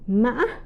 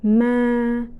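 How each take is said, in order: First: The pitch rises high with a break midway. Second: The pitch stays level in the middle range. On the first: "tumbling or high broken tone" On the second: "the flat or the mid-level tone"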